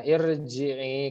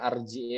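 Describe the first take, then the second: First: The word begins with an i vowel. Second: The word begins with an a vowel. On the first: The speaker calls it right. "dibacanya irji'i" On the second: The speaker calls it wrong. "kenapa enggak baca arji'i"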